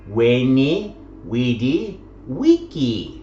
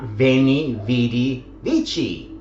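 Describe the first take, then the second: First: The last word begins with a W sound. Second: The last word begins with a V sound. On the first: This is the older, classical pronunciation. "the classical pronunciation" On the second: This is the later pronunciation. "as would have been the later pronunciation"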